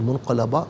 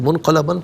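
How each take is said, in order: First: The word ends on a long a vowel. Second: The word ends with an n sound. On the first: The reader stops after this word. "वक्फ़ में अलिफ से चेंज हो जाएगी" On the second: The reading continues into the next word. "दो ज़बर की तनवीन है, तो मुनक़लबन पढ़ेंगे"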